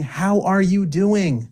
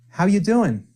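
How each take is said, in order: First: It is said at a normal, unhurried pace. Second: It is said very quickly, with words run together. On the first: "instead of saying" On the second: "you can just say very quickly like this"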